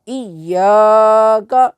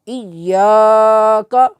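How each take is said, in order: Both takes have the same delivery.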